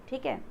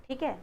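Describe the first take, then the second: No difference in how they are said.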